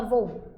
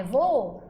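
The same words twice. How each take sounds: First: "voo" cut to a single syllable, vou; pronúncia errada. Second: "voo" drawn out as VO-o, two syllables; pronúncia correta, hiato. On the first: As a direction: say "voo" as one short syllable. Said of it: "a gente não fala voo". ("voo" numa sílaba só, como vou) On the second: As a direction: say "voo" with both Os heard. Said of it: "é voo". ("voo" com os dois Os, vo-o) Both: Shown as a demonstration.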